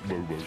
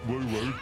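First: The voice stays at a normal pitch. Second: The voice is pitched noticeably higher. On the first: The speaker calls it right. "That's less problematic" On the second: The speaker calls it wrong. "you're doing the thing where the voice gets higher"

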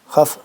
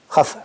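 The two takes are said the same way.

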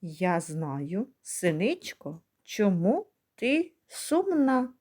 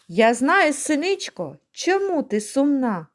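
First: The line is recited at a slower pace. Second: The line is recited at a quicker pace.

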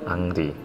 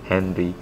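First: The name is said Korean-style, starting with a vowel. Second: The name is said English-style, starting with H. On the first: This is closer to the original reading and Koreans understand it. "Kalau mau dekat sama orang Korea sambil bicara sepak bola, bilangnya" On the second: This is how English-speaking commentators read it. "dibaca dengan bahasa Inggris"

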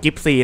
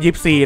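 First: The name starts with a g sound. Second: The name starts with a y sound. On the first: The speaker calls it wrong. "มันไม่ได้ชื่อกิปซีนะผมอ่านผิด" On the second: The speaker calls it right. "มันชื่อยิปซีนะครับ"

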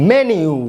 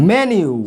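Both takes have the same delivery.

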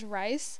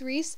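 First: The vowel sounds like 'eye', as in rice. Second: The vowel sounds like 'ee', as in reese. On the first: The speaker calls it wrong. "I kept calling him Rice because it was spelled R-H-Y-S-E" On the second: The speaker calls it right. "I got corrected, and I'm like, okay, it's Reese"

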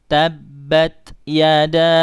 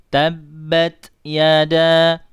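No difference in how they are said.

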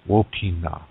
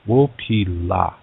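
First: The final syllable begins with an n sound. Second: The final syllable begins with an l sound. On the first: This is the Nakota dialect form. "Nakota people" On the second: This is the Lakota dialect form. "In Lakota, we have this expression"

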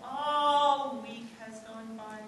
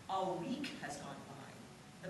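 First: The word "a" is drawn out and stressed. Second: The stress falls on the word "week".

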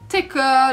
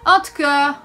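First: The words are squeezed into one quick chunk. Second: Each word is said fully and separately.

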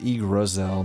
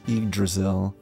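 First: The D sound in the middle is left out. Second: The D sound in the middle is pronounced. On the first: The speaker calls it wrong. "I keep saying Yggdrasil, but I'm skipping the D" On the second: The speaker calls it right. "I think it's Yggdrasil"

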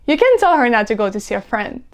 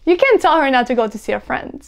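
No difference in how they are said.

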